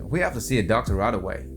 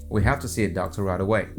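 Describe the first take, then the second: The two takes are said the same way.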